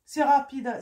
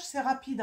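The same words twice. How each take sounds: First: "C'est rapide" repeated noticeably louder, leaning on "C'est"; emphatic repeat. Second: Said in the usual way. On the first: Shown as a demonstration. Card reader insisting to Capricorns, louder emphatic "C'est rapide". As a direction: hit "C'est" hard the second time round. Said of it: "repeats the phrase louder". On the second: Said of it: "repeats the phrase".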